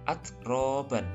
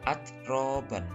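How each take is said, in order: Both takes have the same delivery.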